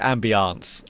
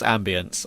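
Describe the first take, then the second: First: It is said in a posh, careful way. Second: It is said in a quick, casual way. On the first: The speaker wants to sound refined. "if I want to sound posh" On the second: The speaker is just talking quickly. "If I want to just talk in a quick sentence"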